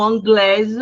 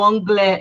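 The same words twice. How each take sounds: First: "anglaise" ends with a clear z sound; sounded final S. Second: "anglais" ends on the vowel, the S not sounded; silent final S. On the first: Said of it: "eu vou pronunciar o S". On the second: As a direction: say "anglais" with no S at the end. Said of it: "eu não pronuncio o S". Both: Shown as a demonstration.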